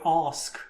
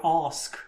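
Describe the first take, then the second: First: The word is said in a posh accent. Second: The same.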